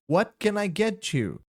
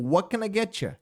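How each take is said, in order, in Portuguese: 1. A última palavra é um "you" completo e claro. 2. É mais rápido, com a última palavra reduzida a "ya".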